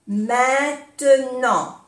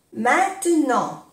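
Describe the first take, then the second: First: "Maintenant" stretched out slowly; slow syllables. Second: Said in the usual way. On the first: Shown as a demonstration. Teacher repeating for learners, "Maintenant" slowly by syllable. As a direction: draw out each syllable of "Maintenant".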